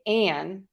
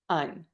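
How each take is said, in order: First: The vowel is full and unreduced. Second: The vowel is a short relaxed schwa. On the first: The speaker calls it wrong. "I'm not going to say" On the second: The speaker calls it right. "I'm going to use that schwa"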